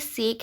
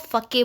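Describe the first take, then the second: First: The word is said with an English pronunciation. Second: The word is said with a Japanese pronunciation. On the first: "ये अगर आप इंग्लिश के उससे प्रोनाउंस करेंगे तो ये सेक है" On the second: "जैसे कि ये स्टोरी जापान की है तो हम इसको फके बोलते हैं"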